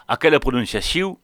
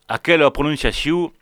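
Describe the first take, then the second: The two takes are said the same way.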